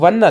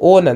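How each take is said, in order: First: It sounds like the English word 'one'. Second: It sounds like the English word 'own'. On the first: The speaker calls it wrong. "ಒನ್ ಅಲ್ಲ ಇದು" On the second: The speaker calls it right. "ಓನ್ ಅಂತ ಬರುತ್ತೆ"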